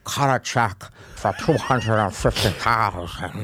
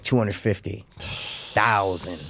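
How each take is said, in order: First: Slow, low mock villain voice with a laugh; lightly voiced sinister movie character; quoting the villain. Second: Low, quiet villain imitation; a hint of a sinister movie character; quoting the villain. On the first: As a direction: drawl out the order, half laughing. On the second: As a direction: drop low and soft to mimic the rich villain. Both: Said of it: "He's like".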